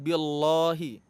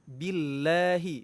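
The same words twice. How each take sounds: First: The L sound is heavy and thick. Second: The L sound is light and thin. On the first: The speaker calls it wrong. "bukan billahi" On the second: The speaker calls it right. "kita baca tarqiq atau tipis"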